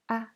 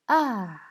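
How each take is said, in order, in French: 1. Le ton est court, léger et non accentué. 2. Le ton tombe brusquement depuis le haut. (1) "c'est un ton neutre" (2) "Le quatrième ton, ça descend"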